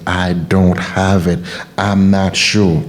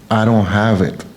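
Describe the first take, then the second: First: Slow defeated self-talk. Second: Said in the usual way. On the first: Shown as a demonstration. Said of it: "You're erasing yourself from your path when you start". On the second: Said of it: "when you start".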